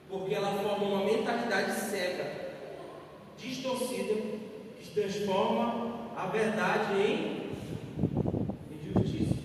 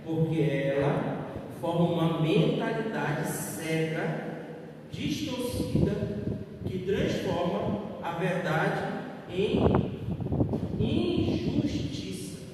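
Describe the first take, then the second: First: It is said at normal speed. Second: It is said very slowly.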